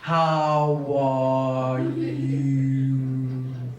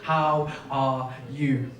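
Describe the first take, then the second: First: It is drawn out very slowly and deeply. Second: It is said at normal speed.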